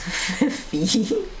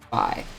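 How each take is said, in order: First: The vowel rhymes with see. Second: The vowel rhymes with pie. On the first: The speaker calls it wrong. "for some reason they think that equals Phi" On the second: The speaker calls it right. "Rhymes with pie"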